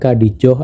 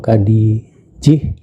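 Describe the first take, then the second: First: The last syllable has an 'oh' vowel. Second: The last syllable has an 'ih' vowel. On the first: "bukan Khadijoh" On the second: "atau Khadijih"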